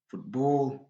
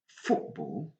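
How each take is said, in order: First: The stress falls on the second part, ball. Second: The stress falls on the first part, foot. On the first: The speaker calls it wrong. "il est interdit de dire" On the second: The speaker calls it right. "foot plus prononcé"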